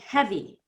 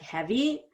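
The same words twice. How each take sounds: First: The voice falls at the end like a statement. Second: The voice rises at the end like a question. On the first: It is stated as a fact. The speaker calls it right. "pretend it's a statement" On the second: It is asked as a question. The speaker calls it wrong. "I don't want it to sound like a question"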